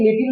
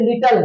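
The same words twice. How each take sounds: First: लिटिल with an i vowel in the second syllable; mispronounced लिटिल. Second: लिटल with no i in the second syllable; correct लिटल pronunciation. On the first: Teacher showing students how many misread little, mispronounced लिटिल with a second i. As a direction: say लिटिल as "li-til", a clear second i. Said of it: "कई लोग लिटिल पढ़ते हैं, लेकिन लिटिल नहीं है". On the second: Teacher correcting students' reading of little, लिटल with a reduced second vowel. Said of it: "लेकिन लिटिल नहीं है, ये लिटल है". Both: Shown as a demonstration.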